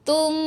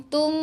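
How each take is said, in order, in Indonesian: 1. Bibir menyentuh ringan dan m berdengung. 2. Bibir menyentuh ringan dan m berdengung.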